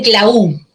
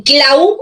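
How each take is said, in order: First: CLAU broken as cla-Ú, weight on U; stress on U. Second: CLAU with the weight on A, CLÁ-u; stress on A. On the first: Teacher shows students the mistaken option, stress on U. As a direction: push the U of CLAU. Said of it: "no en la U". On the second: Teacher asks students how they say it, stress on A. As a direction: lean on the A of CLAU. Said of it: "La fuerza de voz está en la A". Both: Shown as a demonstration.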